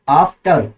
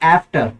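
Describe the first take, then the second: First: It is said with a British accent. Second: It is said with an American accent.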